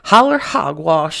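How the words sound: It is said in a West Virginia accent.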